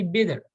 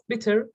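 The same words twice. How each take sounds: First: "bitter" said like "bidder". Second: "bitter" with a crisp T in the middle; clear T. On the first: Teacher showing natural speech, "bitter" with a D sound. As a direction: soften the T in "bitter" to a quick D. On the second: Teacher showing what to avoid, "bitter" with full T. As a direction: sound the T fully in "bitter". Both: Shown as a demonstration. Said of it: "Pronouncing T's as D's".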